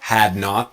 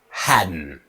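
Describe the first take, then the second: First: Two full words with a clear T. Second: One contracted word with a silent T. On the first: "it's had not to hadn't" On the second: "Silent T, strong N"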